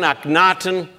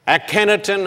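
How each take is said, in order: First: Akhenaten as three syllables, ahk-NAH-ten; alternative pronunciation. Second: Akhenaten as four syllables, a-KEN-a-ten; alternative pronunciation. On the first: Lecturer giving both versions of the pharaoh's name, Akhenaten as ahk-NAH-ten. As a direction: say Akhenaten with a long "nah", no "ken". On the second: Lecturer giving both versions of the pharaoh's name, Akhenaten as a-KEN-a-ten. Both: Shown as a demonstration.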